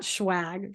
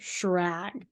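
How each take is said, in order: First: The second consonant sounds like a w. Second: The second consonant sounds like an r. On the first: The speaker calls it wrong. "it's not Schwag" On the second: The speaker calls it right.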